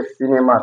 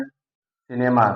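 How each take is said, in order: First: Said in the usual way. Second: cinema drawn out slowly, each syllable clear; slow teaching model of cinema; slow demo word. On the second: Shown as a demonstration. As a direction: stretch cinema out slowly for students. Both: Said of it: "सी के बाद आई आया है".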